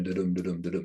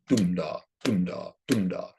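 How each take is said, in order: First: Quick "da-dum" run, stress on each "dum"; light "da", weighted "dum", repeated; iambic beat. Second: "dum-da" in separate pairs, stress on "dum"; falling "dum-da" beats, spaced apart; reversed beat. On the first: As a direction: rattle off "da-dum" with second-syllable stress. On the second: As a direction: strike "dum" first, pause after each "da". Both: Shown as a demonstration. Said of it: "a reverse of the iambic pentameter".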